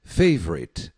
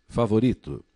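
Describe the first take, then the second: First: Favorite stressed on the first syllable; FAY-vorite for the class to copy; English favorite. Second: Favorito said the Portuguese way, stress on RI; fa-vo-RI-to, plain Portuguese. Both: Shown as a demonstration.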